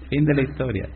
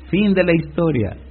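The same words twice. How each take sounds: First: "fin de la historia" repeated quieter, falling on "de"; quiet trailing echo; softer echo. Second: "Fin" punched and held, falling close; final "Fin" given weight; stress on fin. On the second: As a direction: lean on "Fin de la historia". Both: Shown as a demonstration. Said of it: "repeated twice".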